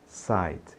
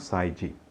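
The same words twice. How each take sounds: First: The word ends cleanly on the consonant. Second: An extra vowel is sounded after the final consonant. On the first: The speaker calls it right. "diga side" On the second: The speaker calls it wrong. "e não side"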